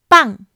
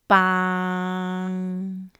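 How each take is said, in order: First: The syllable has a high falling pitch. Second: The syllable has a low level pitch. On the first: It means flower. "High falling pitch" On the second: It means a stick. "Low pitch"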